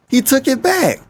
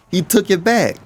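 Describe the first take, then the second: First: Incredulous, much higher repeat. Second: Said in the usual way. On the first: Real, not acted. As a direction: squeak it in disbelief.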